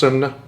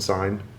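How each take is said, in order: First: It is said with an oo-like vowel, two syllables. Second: It is said as one syllable with a long i. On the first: This is the original Norwegian pronunciation. "originally it's pronounced sun. It's pronounced sunna" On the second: This is the common American misreading. "closer than sign"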